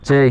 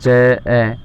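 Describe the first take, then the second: First: The syllable is said as one unbroken unit. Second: The syllable is split into two separate parts. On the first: The speaker calls it right. "हम इसको हमेशा च ही बोलेंगे" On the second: The speaker calls it wrong. "ना कि हम इसे इस तरह बोल सकते हैं"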